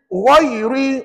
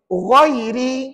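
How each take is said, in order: First: The r is said thick, with a sour face. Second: The r is said thin, with a smile. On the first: The speaker calls it wrong. "masam muka. Maka kalau begitu dia jadi, dia jadi tebal. Tak betul pada bacaan" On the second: The speaker calls it right. "ri itu nipis"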